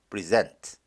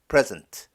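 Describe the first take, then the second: First: The stress is on the second syllable. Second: The stress is on the first syllable. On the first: It is a verb meaning to give or to attend. "동사는 강세가 뒤에 있죠" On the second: It is a noun or adjective meaning gift or attending. "명사, 형용사일 때는 강세가 앞에 있습니다"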